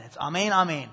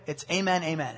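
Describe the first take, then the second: First: Amen said the Greek way, ah-MAYN; amen with an open "ah" first, stress on the second syllable; amen pronounced ah-men as in the original Greek. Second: Amen said the English way, AY-men; amen as in church, first syllable like "day"; amen with a long A, AY-men. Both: Shown as a demonstration. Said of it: "that word in Greek is amen".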